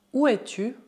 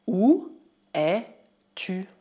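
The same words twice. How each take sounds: First: Said in the usual way. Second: Three separated words. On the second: Shown as a demonstration. Teacher models short French question, word by word. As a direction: set each word apart with a pause.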